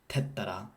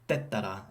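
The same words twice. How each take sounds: First: The first t has a puff of air. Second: The first t has no puff of air. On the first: The speaker calls it wrong. "and not" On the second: The speaker calls it right. "not aspirated at the beginning of a word"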